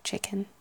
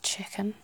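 First: It has standard, non-Liverpool consonants. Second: It has Liverpool-style consonants. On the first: "than chicken" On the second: "they'd pronounce it more like chicken"

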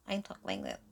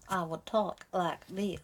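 First: It is spoken in a Valley girl accent. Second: It is spoken in a Southern US accent. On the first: "if I was a Valley girl, I'd talk like this" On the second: "if I was a Southern Belle, I would talk like this"

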